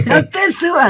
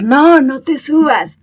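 First: Much higher mock shout at the puppy; mock yell at the dog. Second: Slow, firm, higher warning to the dog; patient but firm correction; firm slow no to the puppy. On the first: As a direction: yell it up high like losing patience. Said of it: "le gritas". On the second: Retold or imitated. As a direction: say it slowly and firmly, a little higher. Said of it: "vas y le dices".

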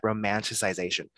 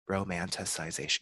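First: Said in the usual way. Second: "Romanticization" repeated softer and lower, testing each syllable; trying the word again. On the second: Real, not acted. Unsure of the word, she repeats it quietly to herself. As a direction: quietly sound out "Romanticization" to check it. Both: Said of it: "we're gonna go with it".

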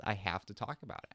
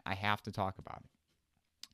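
First: Said in the usual way. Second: Slower, leaning on "have"; stress on HAVE. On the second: Real, not acted. Podcaster insisting on discussing the show, stress on "have". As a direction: draw the line out and stress "have". Repeats the line for emphasis.

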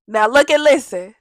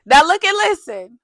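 First: Commanding call. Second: "Now look and listen" pushed up, louder, calling the room; louder, higher call. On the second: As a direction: raise the voice and demand attention: "Now look and listen". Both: Real, not acted.

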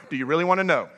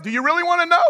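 First: Said in the usual way. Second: High-pitched, insistent question; worked-up challenge. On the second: Acted. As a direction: fire the question back, all worked up. Acted challenge after venting.

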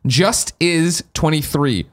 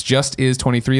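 First: Slowly spelling out the name; drawn-out name read. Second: Said in the usual way. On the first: Shown as a demonstration. Host reading a listener's name out slowly. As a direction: read the name slow and deliberate. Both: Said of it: "The way it sounds".

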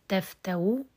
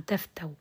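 First: تفتو with a brief u after the w; rawm. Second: تفتو stopped on the w glide; pure sukun. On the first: Teacher recaps the second form, rawm on the waw. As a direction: say تفتو as "taftawu", faint damma at the end. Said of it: "الرم والإشمام". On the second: Teacher recaps the forms, pure sukun ending. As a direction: say تفتو as "taftaw", no vowel after the waw. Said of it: "سكون محض". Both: Shown as a demonstration.

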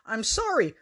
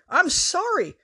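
First: Said in the usual way. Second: Sorry jumps up high, pleading; a pleading high-pitched sorry; high squeaky sorry. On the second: A narrator's reading. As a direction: squeal the apology. Apologising while being hit.

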